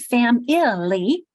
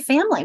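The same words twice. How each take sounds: First: Every written syllable of the word is pronounced. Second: The word is said in a shortened, reduced form. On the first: This follows the spelling, not everyday speech. "We don't say family" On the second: This is how people naturally speak. "Notice how we say family"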